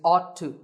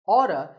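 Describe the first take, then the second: First: Both words are said fully and separately. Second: The two words blend into one reduced form.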